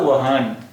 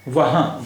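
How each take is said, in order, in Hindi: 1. शब्द पूरे न व्यंजन से खत्म होता है। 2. स्वर नासिकीकृत है, इसमें पूरा न नहीं है। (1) "तो ये नून हो जाता, और फिर इसका उच्चारण होता वहान" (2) "वाव हे अलिफ हा और नून गुन्ना"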